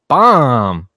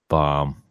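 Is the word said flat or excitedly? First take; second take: excitedly; flat. First: The word is said loudly, with excitement. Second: The word is said flatly, without excitement. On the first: The speaker calls it right. "there's an exclamation point" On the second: The speaker calls it wrong. "You can't say it like that"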